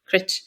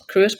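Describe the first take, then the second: First: The name is said with the local pronunciation. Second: The name is said the way it looks. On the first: This is how people who live there say it. The speaker calls it right. "or Crit, as the locals call it" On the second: This is an outsider's reading of the name. The speaker calls it wrong. "I mispronounced it, Cruit, because it's how it's spelled"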